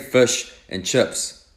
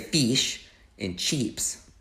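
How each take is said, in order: First: It is said in a New Zealand accent. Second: It is said in an Australian accent.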